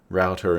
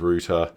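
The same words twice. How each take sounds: First: It is said with a non-Australian accent. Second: It is said with an Australian accent. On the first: The speaker's accent has drifted. The speaker calls it wrong. "I've started saying router" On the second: This is the speaker's original way of saying it. The speaker calls it right. "instead of router"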